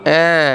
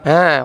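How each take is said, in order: No difference in how they are said.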